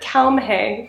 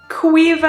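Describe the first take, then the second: First: The name is said as 'Kalmhe'. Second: The name is said as 'Quiva'. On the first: The speaker calls it wrong. "I said Kalmhe" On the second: The speaker calls it right. "She said Quiva"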